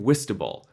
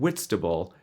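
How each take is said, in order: First: The t sound after 'Whi' is dropped. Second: The t sound after 'Whi' is pronounced. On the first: The speaker calls it wrong. "you're saying Whistable" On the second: The speaker calls it right. "I'm saying Whitstable"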